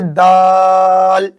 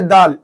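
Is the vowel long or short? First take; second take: long; short. First: The vowel is drawn out long. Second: The vowel is cut short. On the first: The speaker calls it right. "खींच के कहेंगे" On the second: The speaker calls it wrong. "ऐसा नहीं कहेंगे"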